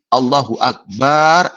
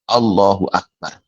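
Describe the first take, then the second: First: The vowel after the b is drawn out long. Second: The vowel after the b is short. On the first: It turns the word into one meaning drum. The speaker calls it wrong. "kalau baknya dipanjangkan, ditambah alif" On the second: It means God is the greatest. The speaker calls it right. "Takbiratul ihram hanya satu lafadznya"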